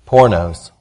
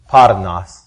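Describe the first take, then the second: First: The word is pronounced as spelled in English. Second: The word is pronounced the Greek way. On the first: "I'm going to pronounce it like it looks and reads in English" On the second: "The proper pronunciation for the word is parnas"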